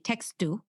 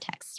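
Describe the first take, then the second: First: An extra vowel is added after the final consonant. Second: The word ends on the consonant with no vowel. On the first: The speaker calls it wrong. "you might say textu" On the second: The speaker calls it right. "you intended to say the word text"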